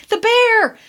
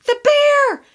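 First: Put-on high, panicked child's shriek; high alarmed child's cry; frightened child screaming. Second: Even higher, tearful shriek; terrified crying child; crying child scream. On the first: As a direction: shriek it like a terrified kid who's just seen a bear. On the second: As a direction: scream it through tears, higher than before the first time. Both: A narrator's reading. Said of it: "all screaming at once".

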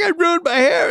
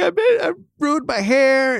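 First: Much higher, louder mock crying wail; hammed-up kid wail. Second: High, far mock-sobbing wail of a kid; imitating son crying. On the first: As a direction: exaggerate the boy's whine to a squeal. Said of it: "super upset". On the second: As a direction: whimper it like a crying boy over his haircut. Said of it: "and he's crying".

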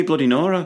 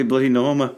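First: "Nora" said with no m, higher-pitched; correcting to Nora. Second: "Norma" with an m, NOR-muh; querying Norma. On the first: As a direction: insist on "Nora", NOR-uh, without an m. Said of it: "The saying is". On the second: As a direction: question "Norma", sounding the m in the middle. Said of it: "Why would it be". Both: Shown as a demonstration.

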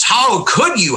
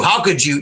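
First: A higher, hammed-up gasp of outrage; mock the shocked fans, pitch up. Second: Mock outrage, dropped. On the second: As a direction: repeat it flatter, under the breath. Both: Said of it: "this pearl clutching".

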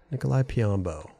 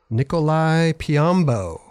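First: Said in the usual way. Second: Drawn-out, deliberate name call; slow announcer name. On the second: Shown as a demonstration. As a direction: announce it slowly like a host. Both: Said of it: "Sounds funny when you say it".

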